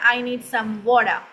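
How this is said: It is said in a British accent. "British इसे कहेंगे"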